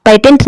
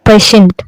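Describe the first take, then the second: First: "पेटेंट" with a hard t in the middle; "पेटेंट", tongue-tap t before the last syllable; wrong hard t. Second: "पेशेंट" with sh in the middle; "पेशेंट", middle t softened into sh; correct sh sound. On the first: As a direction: misread it as "पेटेंट", t instead of sh. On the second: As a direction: say "पेशेंट", sh instead of a hard t. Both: Shown as a demonstration. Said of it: "पेटेंट नहीं पढ़ेंगे".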